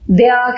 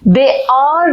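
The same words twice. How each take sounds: First: It is said as one contracted word. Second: It is said as two full separate words. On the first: The speaker calls it right. "दे आर कहते हैं" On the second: The speaker calls it wrong. "दे आर नहीं कहते"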